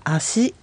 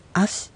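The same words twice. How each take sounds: First: 足 as a-su, with a full vowel after s; 足 said wrongly, su fully voiced at the end; wrong pronunciation. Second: 足 as as, ending on a bare s; 足 cut off on the hiss of s with no vowel; correct pronunciation. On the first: Teacher shows the wrong way, 足 as a-su. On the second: Teacher shows the right way, 足 as as ending on s. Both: Shown as a demonstration. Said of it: "Sで終わるものは".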